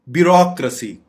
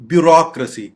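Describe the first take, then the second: The two takes are said the same way.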